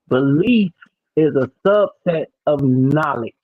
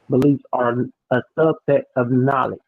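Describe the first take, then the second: First: The sentence is spoken slowly and deliberately. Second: The sentence is spoken at a normal pace.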